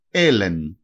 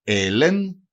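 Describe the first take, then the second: First: Έλεν with an open e, elen; teacher demo of έλεν; example word. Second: Έλεν again, slowly, open e; teacher repeats έλεν. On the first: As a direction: say έλεν clearly. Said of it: "παράδειγμα". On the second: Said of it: "Έλεν σημαίνει". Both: Shown as a demonstration.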